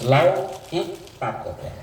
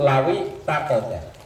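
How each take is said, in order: First: The two words are read with a break. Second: The two words are joined without a break. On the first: "Kalau dibaca putus" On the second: "Kalau dibaca sambung"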